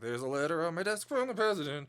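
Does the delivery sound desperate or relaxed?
relaxed. It is said in a relaxed, lackadaisical way.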